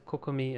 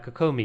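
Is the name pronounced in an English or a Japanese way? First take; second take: Japanese; English. First: The name is said with Japanese pronunciation. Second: The name is said with English pronunciation. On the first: "as you'd pronounce it in Japanese" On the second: "that's how I think everyone in English pronounces it"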